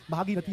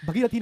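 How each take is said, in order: First: भागीरथी with long "bhaa"; correct long first vowel. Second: भगीरथी with short "bha"; wrong short first vowel. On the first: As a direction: say भागीरथी as "bhaa-gee-ra-thee". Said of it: "भागीरथी होता है". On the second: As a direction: say भगीरथी as "bhuh-gee-ra-thee". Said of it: "भगीरथी नहीं". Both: Shown as a demonstration.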